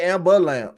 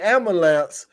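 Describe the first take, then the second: First: The word is said with a B sound. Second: The word is said without a B sound. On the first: This is the more city way of saying it. "so it still got a B in it" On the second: This is the more country way of saying it. "we say ambulance"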